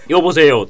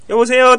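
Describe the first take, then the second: First: The voice is deep and resonant, from the belly. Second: The voice is light and high, not from the belly. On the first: The man sounds strong. The speaker calls it right. "お腹から声出す" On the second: The man sounds weak. The speaker calls it wrong. "受けちゃダメなんですよ"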